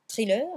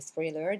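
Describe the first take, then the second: First: It is said with a French accent. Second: It is said with an English accent. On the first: "si je le dis à la française" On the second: "si je le dis à l'anglaise"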